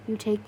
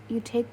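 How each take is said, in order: Both takes have the same delivery.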